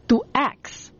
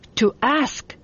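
First: The word ends with a k then s sound. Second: The word ends with an s then k sound. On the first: "говорят «to ask»" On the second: "вместо слова «to ask»"

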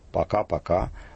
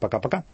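First: It is said at a normal, unhurried pace. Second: It is said fast with reduced, swallowed vowels.

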